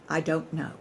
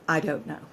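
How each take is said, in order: Both takes have the same delivery.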